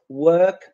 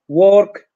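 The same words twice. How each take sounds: First: The vowel is pronounced as an er sound. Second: The vowel is pronounced as an O sound. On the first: "Instead of" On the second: "Instead of using the sound E, Polish people go for O"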